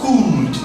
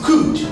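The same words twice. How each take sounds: First: The vowel is long. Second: The vowel is short. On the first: The speaker calls it wrong. "that would be a long sound" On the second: The speaker calls it right. "This is could"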